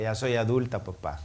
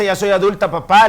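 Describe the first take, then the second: First: Said in the usual way. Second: Higher and louder, papá punched hard; emphatic repeat. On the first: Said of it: "Y se pone a reír y me dice". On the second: Shown as a demonstration. Pastor to congregation, emphatic and louder on papá. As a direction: pastor stresses papá to make the point. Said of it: "Y cuando me dice".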